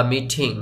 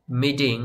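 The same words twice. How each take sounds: First: মিটিং with the t softened toward ড; মিটিং, টি উচ্চারণ ড এর মতো; soft d sound. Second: মিটিং with the t said like ঠ, hard and aspirated; মিটিং, টি উচ্চারণ ঠ এর মতো. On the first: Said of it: "ড এর মতো করেও উচ্চারণ করতে পারেন". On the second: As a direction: say মিটিং with a breathy retroflex ঠ sound in the middle. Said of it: "টিটাকে ঠ এর মতো করে উচ্চারণ করতে পারেন". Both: Shown as a demonstration.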